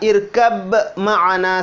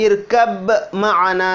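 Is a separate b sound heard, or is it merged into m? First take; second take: b heard; b heard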